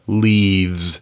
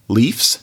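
First: The consonant before the ending is a v. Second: The consonant before the ending is an f. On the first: The speaker calls it right. "then you make it into a V" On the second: The speaker calls it wrong.

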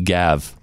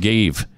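First: The vowel is a short 'a' sound. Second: The vowel is a long 'ay' sound. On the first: "He gav" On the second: "he didn't gave"

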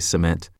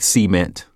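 First: The word is said in a standard accent. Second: The word is said in a Southern accent. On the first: The speaker calls it right. "It's actually cement" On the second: The speaker calls it wrong. "I would pronounce things with a Southern accent, like cement"

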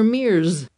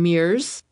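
First: The name ends with a buzzing Z sound. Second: The name ends with a hissing S sound.

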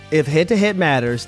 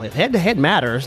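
First: It is read in his ordinary speaking voice. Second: It is read in a put-on nerdy voice. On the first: "why you read it that way" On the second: "you want me to use the voice?"

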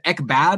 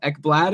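First: The name sounds like Ek-bad, without an L. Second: The name sounds like Ek-blad, with an L. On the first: The speaker calls it wrong. "I said Ekblad instead of" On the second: The speaker calls it right. "instead of Ekblad"

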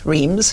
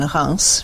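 First: The name is pronounced the English way. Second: The name is pronounced the French way.

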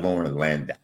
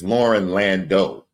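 First: The surname ends with a 'dow' sound. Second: The surname ends like 'Lando', with a 'doe' sound. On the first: The speaker calls it wrong. "not Lauren Landau" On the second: The speaker calls it right. "it's Lauren Landau"

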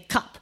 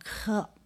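First: The word is said at normal speed. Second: The word is slowly stretched out.

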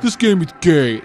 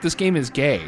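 First: It is said in a mocking, insulting tone. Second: It is said in a plain, matter-of-fact tone. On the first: The game is insulted as bad. The speaker calls it wrong. "without sounding like a douchebag gamer, right? You're not like" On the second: The game is literally described as homoerotic. The speaker calls it right. "No, it's like"

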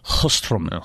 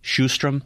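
First: The name is said the native Swedish way. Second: The name is said the usual English way. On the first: The speaker calls it right. "It's Hjöström" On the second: The speaker calls it wrong. "even when we think we have the pronunciations right, they're so far off"

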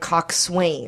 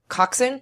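First: The word is read out just as it is spelled. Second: The word is said in its spoken, reduced form. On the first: "That word is spelled like coxswain" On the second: "But you pronounce it coxswain?"

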